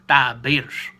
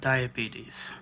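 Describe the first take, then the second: First: The word is said in a Southern drawl. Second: The word is said in a plain standard way.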